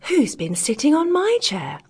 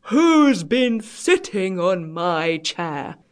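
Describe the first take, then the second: First: Higher-pitched middle bear; middling-sized bear voice. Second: Very slow, drawn-out big bear; great big bear voice. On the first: Middling-sized bear finds chair used, crying out in higher voice. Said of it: "cried in a middling-sized voice". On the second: Great big bear finds chair used, in a great big voice. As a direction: boom it out slowly as a huge bear. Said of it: "in his great big voice". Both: A narrator's reading.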